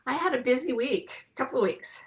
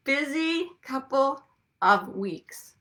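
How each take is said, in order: First: Said in the usual way. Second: A slow, teasing whisper. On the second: Shown as a demonstration. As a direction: whisper it as a knowing aside. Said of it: "I'm just saying".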